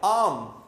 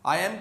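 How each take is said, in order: First: The two words are merged into one syllable. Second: The two words are said separately and fully. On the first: "मिला दिया" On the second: "subjective pronoun और बी को आपस में मिला देते हैं"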